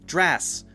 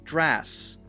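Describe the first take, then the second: No difference in how they are said.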